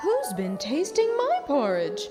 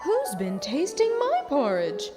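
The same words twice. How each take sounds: First: It is asked in Mother Bear's medium voice. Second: It is asked in Mother Bear's medium voice.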